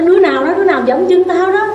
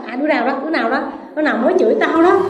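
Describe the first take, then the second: First: Higher, louder who-stepped-on-me yell; a blind man yelling at whoever stepped on his foot; angry shout. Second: Blind man griping. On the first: Acted. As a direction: bark it out at whoever trod on you. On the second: Retold or imitated. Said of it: "ai chửi một cái là".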